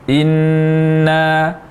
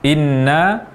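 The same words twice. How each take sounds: First: The doubled n is held long and nasal. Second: The doubled n is held only briefly. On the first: The speaker calls it right. "yang seharusnya di inna" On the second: The speaker calls it wrong. "kurang dalam menggunakan huruf nun bertasdid"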